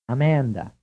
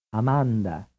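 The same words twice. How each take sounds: First: Amanda with the English short "a" of "man"; English-style Amanda, flat middle vowel; English pronunciation. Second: Amanda with pure "ah" in every syllable; Italian-style Amanda, open vowels; Italian pronunciation. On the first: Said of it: "first pronounced in English". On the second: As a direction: pronounce Amanda as in Italian, ah-MAHN-dah. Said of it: "then pronounced in Italian". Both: Shown as a demonstration.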